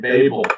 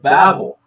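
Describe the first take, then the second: First: The word does not sound like 'babble'. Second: The word sounds like 'babble'. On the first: The speaker calls it wrong. "I get so frustrated sometimes when people say Babel" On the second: The speaker calls it right. "No, it's the Tower of Babel. ... they're babbling"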